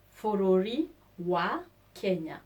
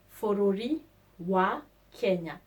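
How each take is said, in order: Both takes have the same delivery.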